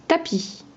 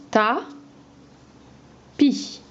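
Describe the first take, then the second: First: Said in the usual way. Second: Ta, pause, pi, montant sur pi; découpe tapis en deux; syllabes détachées. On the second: Shown as a demonstration. (Ta-pi syllabe par syllabe)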